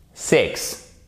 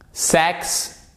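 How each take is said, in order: First: "six" with short I vowel; minimal pair drill. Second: "sex" with open E vowel, higher pitch; minimal pair drill. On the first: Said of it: "ces trois couples de mots". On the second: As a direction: say "sex" clearly, eh vowel, held up as first of two. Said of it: "je le répète une fois". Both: Shown as a demonstration.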